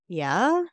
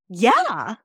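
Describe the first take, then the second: First: It is said as a question. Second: It is said with great excitement. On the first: The speaker is asking for confirmation. "The second one was questioning" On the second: Something exciting is being shared. "The first one was super excited"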